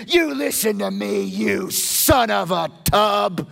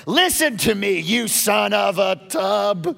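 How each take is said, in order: First: Slow, loud, pointed scolding of a king; Saul's angry rebuke. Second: Saul's angry rebuke repeated. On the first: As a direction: lean in on it like a furious king. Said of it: "Saul basically said". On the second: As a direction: hammer each word like a raging king. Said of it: "He said". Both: Retold or imitated.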